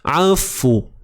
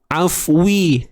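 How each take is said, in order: First: The w ends with rounded lips and no vowel. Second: The w is followed by an i vowel. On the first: The speaker calls it right. "Dia tidak hampir dengan baris atas, dia tidak hampir dengan baris bawah" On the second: The speaker calls it wrong. "Bukan juga afwi, tu baris bawah"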